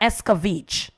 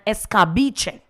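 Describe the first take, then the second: First: The word ends with a short 'veech' sound. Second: The word ends with a 'beh-chay' sound. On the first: This is the local adapted name. The speaker calls it wrong. "Jamaicans mis mispronounce" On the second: This is the original name. The speaker calls it right. "Escabeche is the right word"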